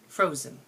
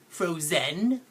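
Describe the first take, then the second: First: The second syllable has a reduced, lazy vowel. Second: The second syllable has a full, clear vowel. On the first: The speaker calls it right. "It's frozen" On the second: The speaker calls it wrong. "It's not like I go around saying ... I don't say that"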